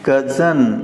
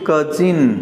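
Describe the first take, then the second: First: The second vowel is a short 'uh' sound. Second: The second vowel is a short 'ih' sound. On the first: The speaker calls it right. "ये कजन सही है" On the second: The speaker calls it wrong. "जब आप इसे कजिन कहते हैं तो ये गलत हो जाता है"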